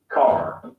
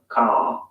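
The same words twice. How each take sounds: First: Car with the final R clearly sounded; American R. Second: Car ending on the vowel, no R; non-rhotic ending on Car; British dropped R. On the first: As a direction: say Car the American way, ending on a full R. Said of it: "Listen to the difference". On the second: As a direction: say Car the British way, final R silent. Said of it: "final R sound is not pronounced". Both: Shown as a demonstration.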